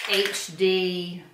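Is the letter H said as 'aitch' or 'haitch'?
aitch. The H is said as 'aitch', American style.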